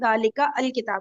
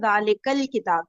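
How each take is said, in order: First: The article's first vowel is sounded as a separate word. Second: The article's first vowel is dropped and words join.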